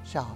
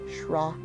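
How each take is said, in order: First: The word has no r sound. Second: The word has a rolled r sound. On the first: The word stands by itself. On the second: The word is part of a compound. "we add a R to it and give it a R, kind of a rolling R sound"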